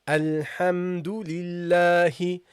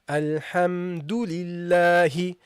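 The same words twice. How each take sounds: Both takes have the same delivery.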